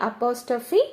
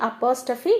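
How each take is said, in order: No difference in how they are said.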